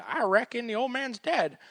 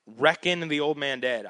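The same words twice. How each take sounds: First: Put-on drawling accent. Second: Said in the usual way. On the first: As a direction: play up a country "I reckon" accent. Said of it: "I just get that accent".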